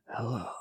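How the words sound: It is said in a raspy, quiet voice.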